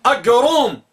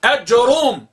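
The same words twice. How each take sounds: First: Teacher demonstrates variant; fourth variant pronounced. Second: أجروم said as one word, Ajroom; fuse it into أجروم, short A; teacher demonstrates variant; third variant pronounced. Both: Shown as a demonstration. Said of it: "وبعضهم ينطق بها".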